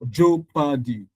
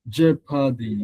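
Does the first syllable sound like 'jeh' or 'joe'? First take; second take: joe; jeh. First: The first syllable sounds like 'joe'. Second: The first syllable sounds like 'jeh'. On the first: The speaker calls it wrong. "imagine if you had pronounced that word as Joe Paddy" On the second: The speaker calls it right. "That thing is je"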